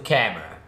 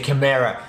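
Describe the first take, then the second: First: The word is said with the changed pronunciation. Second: The word is said with the former pronunciation. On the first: The speaker calls it right. "I changed the pronunciation of the camera" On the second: The speaker calls it wrong. "I used to say camera and it was pretty annoying for you"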